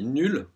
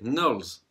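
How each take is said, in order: First: The name is said with a French pronunciation. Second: The name is said with an American English pronunciation. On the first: The speaker calls it wrong. "si on dit nul, ben, c'est un peu naze" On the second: The speaker calls it right. "je vais le prononcer comme les Américains"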